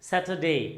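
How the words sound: The r sound is dropped entirely. "ব্রিটিশরা এটাকে বলছে স্যাটারডে"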